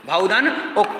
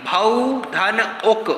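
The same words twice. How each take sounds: First: Said in the usual way. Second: भौधन उक said slowly, the two parts spelled out apart; slow teaching split of भौधन उक; slow split syllables. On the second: Shown as a demonstration. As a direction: stretch out भौधन then उक separately. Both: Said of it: "भावुक की संधि".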